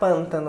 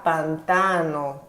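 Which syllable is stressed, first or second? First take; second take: first; second. First: The stress is on the first syllable. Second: The stress is on the second syllable. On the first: The speaker calls it wrong. "eu não vou pronunciar pântano" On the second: The speaker calls it right. "a sílaba tônica é o tan"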